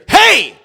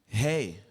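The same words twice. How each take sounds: First: It is said aggressively, like a threatening cop. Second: It is said softly and familiarly, like to a partner.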